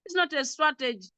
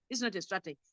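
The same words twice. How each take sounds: First: It's not a strategy, with "not" pressed firmly; firm repeat. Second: It's not a strategy, dropped softer, "not" still leaned on; softer repeat. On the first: Teacher firmly correcting the class's indicator idea. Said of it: "This is not a strategy". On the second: Teacher softly repeating the point to the class. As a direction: let It's not a strategy fall away quietly. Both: Shown as a demonstration.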